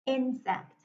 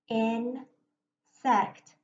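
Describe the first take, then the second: First: Said in the usual way. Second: "Insect" in two chunks, In, pause, sect; split into syllables. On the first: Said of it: "now I'll read the word". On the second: Shown as a demonstration. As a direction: break "Insect" apart as In... sect. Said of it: "going to break it between my".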